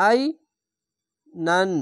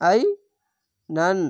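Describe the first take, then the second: No difference in how they are said.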